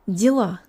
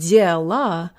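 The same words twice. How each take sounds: First: The first vowel is reduced to 'ee'. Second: The first vowel is a full 'yeh' sound. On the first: The speaker calls it right. "I'm saying ди. It sounds more like an E than a yeah" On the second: The speaker calls it wrong. "I'm not saying дела"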